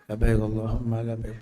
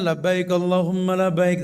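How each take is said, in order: First: The phrase is said softly and quietly. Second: The phrase is said in a full, loud voice. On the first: The speaker calls it wrong. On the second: The speaker calls it right.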